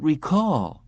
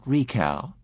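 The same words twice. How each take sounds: First: "recall" with stress on -CALL, a bit higher; correcting her: "recall", re-CALL; correct pronunciation. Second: "recal" said short, as REE-cal; the mistaken "recal" echoed back; wrong stress. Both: A narrator's reading. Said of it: "the receptionist corrected him".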